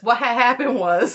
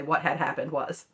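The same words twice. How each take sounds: First: Lightly hammed-up, louder quote; imitated catchphrase. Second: Said in the usual way. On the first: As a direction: quote the meme phrase a little louder. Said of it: "Robin unironically says".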